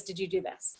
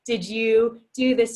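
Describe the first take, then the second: First: "Did you do this?" fading to a soft mumble; trailing off. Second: Slow, pressing "Did you do this?" with weight on "do"; pressing question. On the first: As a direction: let the repeated question die away. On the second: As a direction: interrogate the partner, leaning on "do". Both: Shown as a demonstration. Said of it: "rapid fire questions, same example".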